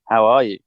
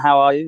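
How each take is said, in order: First: It is asked in an intense, earnest tone. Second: It is asked in a light, casual tone. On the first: The asker is deeply concerned about the person's wellbeing. "very intense" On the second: It is only a passing greeting. "in passing"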